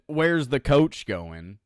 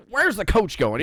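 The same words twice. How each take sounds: First: Slow retold quote. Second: Higher, louder mock announcer voice; hammed-up J R calling the action; J R impression. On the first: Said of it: "from when J R said". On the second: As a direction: play a puzzled excited commentator. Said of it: "is like".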